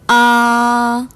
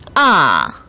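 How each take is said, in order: First: The pitch stays high, long and flat. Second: The pitch drops sharply from high to low. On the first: "높고 길고 평평하게 발음하는 일 성" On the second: "높은 음에서 낮은 음으로 뚝 떨어지는 제사성을 발음했습니다"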